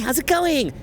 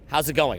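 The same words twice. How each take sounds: First: The pitch rises at the end. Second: The pitch falls at the end. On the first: "up talk" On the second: "or down?"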